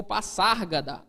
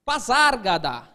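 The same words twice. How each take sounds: First: Passárgada with a voiceless s; pronúncia com SS. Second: Pazárgada with a voiced z; pronúncia com Z. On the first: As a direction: say Passárgada with a hissed double s, not z. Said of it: "mesmo tendo S S". (Passárgada com som de S) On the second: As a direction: say Pazárgada with a buzzed z, not s. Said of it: "O poeta mesmo já falava Pazárgada". (Pazárgada com som de Z) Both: Shown as a demonstration.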